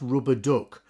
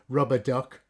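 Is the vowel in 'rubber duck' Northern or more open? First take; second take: Northern; more open. First: The vowel is said the Northern English way. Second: The vowel is said more open, Brummie-style.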